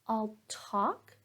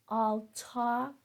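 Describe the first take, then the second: Both takes have the same delivery.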